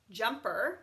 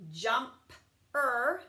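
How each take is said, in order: First: Said in the usual way. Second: Jump-er split into two parts; Jump-er with a break; sounded out. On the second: Shown as a demonstration. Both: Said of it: "Same with this one".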